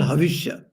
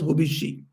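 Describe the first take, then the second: First: It is said with v and a final ya. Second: It is said with b and a final i. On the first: This is the Sanskrit form of the word. "In Sanskrit, it's called havishya" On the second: This is the Bengali form of the word. "in Bangla it is pronounced as hobishi"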